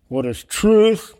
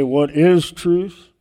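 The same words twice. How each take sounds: First: "What is TRUTH?", slow and higher, with "truth" punched loud; stress on TRUTH. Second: "What IS truth?", slow, with IS pushed hard and a rising pull; stress on IS. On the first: Pastor trying Pilate's question with the weight on "truth". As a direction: hit "truth" hard and high, slowly. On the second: Pastor testing how Pilate stressed it, leaning on "is". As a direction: lean slowly and heavily on the word "is". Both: Shown as a demonstration. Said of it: "I don't know the emphasis of his words".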